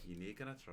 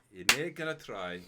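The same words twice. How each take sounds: First: Said in the usual way. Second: Laughing at the refusal. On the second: Real, not acted. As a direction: say it through a laugh.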